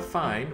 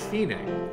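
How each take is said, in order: First: It is said as one syllable, like English. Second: It is said as two syllables, fee-neh. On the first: The speaker calls it wrong. "not fine" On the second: The speaker calls it right. "but fine, which means the end"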